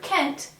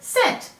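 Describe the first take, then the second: First: The word begins with a hard K sound. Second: The word begins with a soft S sound. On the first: The speaker calls it wrong. "our C is not saying K. We don't read this word Kent" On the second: The speaker calls it right. "We read this word scent. The E is making it say its soft sound"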